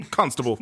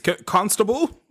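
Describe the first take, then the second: First: Constable said short with a falling tune; clipped falling constable. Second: C-, constable stretched slowly with a rising tune; drawn-out rising constable. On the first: Friend repeating the call to the policeman, short and falling. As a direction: drop it like a firm summons. Mock British police alarm. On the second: Mock calling for a British policeman, slow and rising. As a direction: call out "constable" like a pompous question. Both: Pretend.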